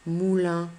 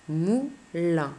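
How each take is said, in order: First: Said in the usual way. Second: "Moulin" in two beats, Mou, pause, lin; split into syllables. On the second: Shown as a demonstration. Teacher shows pupil the syllable count, "Moulin" split Mou, pause, lin. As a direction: break "Moulin" after Mou. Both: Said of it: "deux syllabes".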